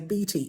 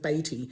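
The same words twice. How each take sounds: First: The first vowel is the usual EA sound. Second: The first vowel is not the usual EA sound. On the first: The speaker calls it wrong. "most foreigners... will say Beatty" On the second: The speaker calls it right. "instead of Beatty"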